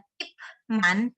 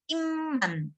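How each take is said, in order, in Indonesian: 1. Suku kata pertama berakhir dengan bunyi p. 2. Suku kata pertama berakhir dengan bunyi m. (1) "bukan Ipman" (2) "tetapi Imman"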